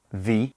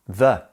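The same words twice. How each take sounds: First: "the" said "thee"; "thee" version. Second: "the" said "thuh"; "thuh" version. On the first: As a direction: give "the" a long ee vowel. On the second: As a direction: give "the" a schwa ending, "thuh". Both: Shown as a demonstration. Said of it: "The two versions of the and the".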